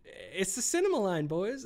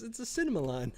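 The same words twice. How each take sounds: First: Said in the usual way. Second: Said through a laugh. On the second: Real, not acted. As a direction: laugh while saying it. Repeats the phrase, then laughs.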